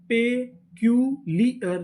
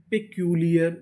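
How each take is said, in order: First: peculiar drawn out slowly, parts joined; slow blended word. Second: Said in the usual way. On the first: Shown as a demonstration. (Peculiar धीरे-धीरे जोड़कर) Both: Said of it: "पूरी meaning".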